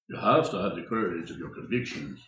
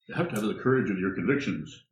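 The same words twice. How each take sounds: First: It is said in a put-on, acted voice. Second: It is said in the speaker's normal voice.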